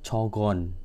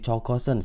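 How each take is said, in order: First: It is shortened to two syllables. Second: All three syllables are said in full. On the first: This is the form used in conversation. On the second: This is the form used in writing.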